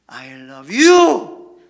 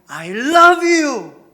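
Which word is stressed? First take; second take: you; love. First: The stress falls on the word you. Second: The stress falls on the word love. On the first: It is you, not anyone else, that is loved. "나는 너를 사랑해. 저 여자가 아니야" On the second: It is truly love, beyond mere liking. "나는 당신을 사랑한다는 거예요. 내가 좋아하는 걸 넘어서서 사랑해"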